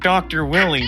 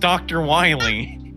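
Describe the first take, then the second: First: The name's first vowel is a short i. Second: The name's first vowel is a long i. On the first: The speaker calls it wrong. "It's not Doctor Willie" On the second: The speaker calls it right. "It's Doctor Wiley"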